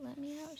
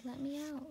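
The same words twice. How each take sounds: First: A hint higher, breathy whispered mouse plea; trapped mouse pleading in a whisper; whispered squeak. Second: A touch higher, small mouse squeak. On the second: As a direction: squeak it like a trapped little mouse. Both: Acted. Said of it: "she squeaked".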